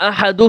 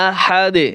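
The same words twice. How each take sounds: First: আহাদু ending on an open "du" vowel; form not recited. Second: আহাদে as "ahad" with a bounced final d; correct qalqalah stop. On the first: Teacher showing what we do not say, open -du ending. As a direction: leave আহাদু open on u, without a stop. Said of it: "কিন্তু বলি না". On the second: Teacher showing what we do say, bouncing d. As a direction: stop on আহাদে with a short echo on d. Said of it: "আমরা বলি কি?". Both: Shown as a demonstration.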